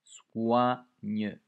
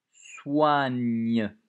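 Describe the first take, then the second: First: "Soigne" loud, the "wa" and the final "gne" sounded clearly; "wa" emphasised. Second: "Il, il soigne" much louder, "soigne" drawn out with the final e sounded; loud, stretched "soigne"; dictation emphasis. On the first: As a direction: bring out "wa" in "Soigne". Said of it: "Le wa". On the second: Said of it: "Toujours une lettre muette à la fin". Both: Shown as a demonstration.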